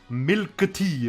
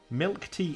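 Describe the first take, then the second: First: It is said with a Japanese pronunciation. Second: It is said with an English pronunciation.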